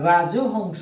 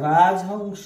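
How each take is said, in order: First: An 'o' vowel is heard after 'raj'. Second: No vowel is heard after 'raj'. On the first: The speaker calls it wrong. "এটাকে যদি আমরা রাজহংস বলি তাহলে হবে না" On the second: The speaker calls it right. "এটা রাজহংস"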